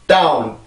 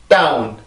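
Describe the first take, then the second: The two takes are said the same way.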